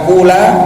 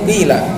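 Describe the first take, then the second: First: The first vowel is a pure u. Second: The first vowel is a pure i. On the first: The speaker calls it wrong. "bukan kula" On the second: The speaker calls it right. "tapi murni qila"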